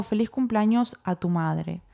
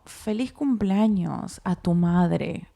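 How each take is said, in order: First: Said in the usual way. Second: Each word drawn out, as if typing it; slow dictation. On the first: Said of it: "Y le pongo". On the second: Retold or imitated. Wife dictating her first text to Eric, slow and deliberate. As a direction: spell out the birthday message slowly while typing. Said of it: "¿Qué le pongo?".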